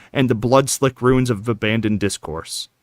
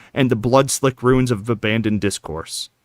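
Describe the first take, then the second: Both takes have the same delivery.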